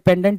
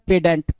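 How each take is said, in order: First: The n sound is clearly pronounced. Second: The n sound is left silent.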